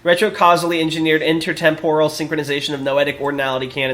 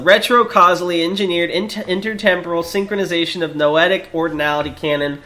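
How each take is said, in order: First: It is read quickly, without stumbles. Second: It is read slowly, with stumbles.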